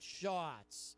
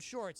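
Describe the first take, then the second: First: The R sound in the word is dropped. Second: The R sound in the word is pronounced. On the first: "he pronounces it shots" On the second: "the word shorts"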